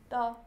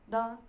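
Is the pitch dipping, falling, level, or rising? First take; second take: level; level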